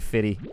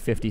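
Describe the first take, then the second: First: The middle f sound is dropped. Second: The middle f sound is fully pronounced. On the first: "I don't say Fitty" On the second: "because I say 50 cent"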